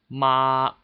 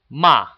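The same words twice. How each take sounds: First: It is said with Mandarin first tone. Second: It is said with a sharp falling fourth tone. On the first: "the first tone is ma" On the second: "The fourth tone is ma"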